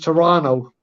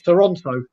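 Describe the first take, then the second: First: The second T is dropped. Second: The second T is clearly pronounced. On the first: This is how locals say the name. "back home it's Toronto. ... There's no extra T" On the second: This is how outsiders say the name. "Anyone here will call it"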